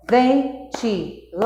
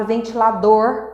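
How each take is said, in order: First: "ventilador" slowly split into four beats; pausa entre sílabas. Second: Said in the usual way. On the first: Shown as a demonstration. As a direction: clap out "ventilador" syllable by syllable, pausing after each. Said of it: "Fica fácil pra gente determinar essa pausa das sílabas". ("ventilador" devagar, separando cada sílaba) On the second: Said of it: "por exemplo, na palavra ventilador".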